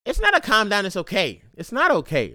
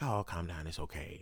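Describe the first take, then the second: First: Louder retort. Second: Mock soothing. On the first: Real, not acted. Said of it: "you got people like". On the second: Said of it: "they're like".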